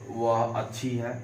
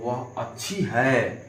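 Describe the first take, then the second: First: अच्छी is said without extra emphasis. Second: अच्छी is said with extra emphasis.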